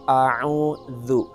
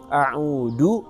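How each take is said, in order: First: The middle consonant is a soft th sound. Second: The middle consonant is a d sound. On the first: The speaker calls it right. "Jadi kita membaca a'udzu" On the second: The speaker calls it wrong. "maka ini huruf da"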